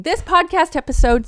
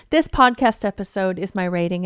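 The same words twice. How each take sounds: First: Heated outburst mid-rant; getting emotional. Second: Said in the usual way. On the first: Real, not acted. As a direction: voice jumps up and louder, worked up. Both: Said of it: "sorry for getting so emotional".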